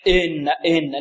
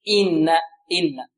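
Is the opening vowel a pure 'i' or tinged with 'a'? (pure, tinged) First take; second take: tinged; pure. First: The opening vowel is tinged toward an 'a' sound. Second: The opening vowel is a pure 'i' sound. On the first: The speaker calls it wrong. "من يأتي بها غير خالصة، يعني فيها شيء من الفتح" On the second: The speaker calls it right. "لا الصحيح إن إن"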